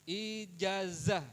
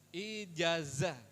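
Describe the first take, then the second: The two takes are said the same way.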